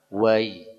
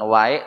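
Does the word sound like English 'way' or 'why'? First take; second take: way; why. First: The vowel sounds like English 'way'. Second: The vowel sounds like English 'why'. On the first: The speaker calls it right. "Seperti tulisan dalam bahasa Inggris, W A Y" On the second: The speaker calls it wrong. "Bukan wai"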